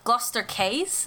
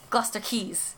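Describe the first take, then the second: First: The second word has no ee vowel sound. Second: The second word has an ee vowel sound. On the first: The speaker calls it wrong. "I want to make the Q a C sound" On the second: The speaker calls it right. "that's an E sound. Just spell it like key"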